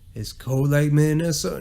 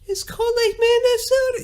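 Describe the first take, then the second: First: It is said in a normal voice. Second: It is said in a high falsetto voice.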